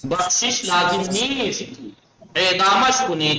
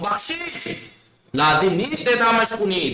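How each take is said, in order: First: The pause comes after the third word. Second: The pause comes after the first word. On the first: No pardon is needed; he should be executed. "East पे कॉमा लगा दें, यहां रुक जाएं आप।" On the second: He is pardoned; there is no need to execute him. "यहां पे कॉमा लगा दूं"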